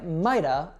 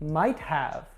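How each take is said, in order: First: Have is reduced to a short uh sound. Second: The word have is pronounced in full. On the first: The speaker calls it right. "I would say mighta" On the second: The speaker calls it wrong. "That's wrong too"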